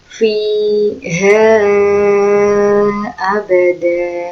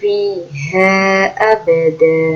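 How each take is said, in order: First: The vowel at the end of 'fiha' is drawn out long. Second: The vowel at the end of 'fiha' is held short. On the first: "itu yang panjang" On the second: "Kalau yang panjangnya seperti matobi'i"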